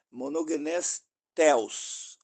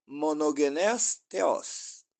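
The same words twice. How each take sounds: First: "theos" stressed on the first syllable, THE-os; "theos" said as THE-os, the mistaken way; misplaced stress. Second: "theos" stressed on the last syllable, the-OS; "theos" drawn out as the-OS; corrected stress. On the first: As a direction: quote "monogenes theos" slowly, leaning on THE in "theos". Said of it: "a sílaba tônica ali não é theos". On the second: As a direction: say "monogenes theos" very slowly, landing on OS in "theos". Same phrase with corrected stress. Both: Retold or imitated.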